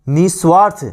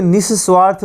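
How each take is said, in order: First: निस्वार्थ with a single s; uncorrected निस्वार्थ. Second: निस्वार्थ with a doubled s; correct निस्वार्थ. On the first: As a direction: say निस्वार्थ as ni-SWAARTH. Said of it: "तो इसे निस्वार्थ बोलते हैं". (निस्वार्थ में एक ही 'स' बोलें) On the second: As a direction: say निस्वार्थ as nis-SWAARTH, holding the s. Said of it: "इसे निस्वार्थ बोलते हैं". (निस्वार्थ में 'स' दोहराकर बोलें) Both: Shown as a demonstration.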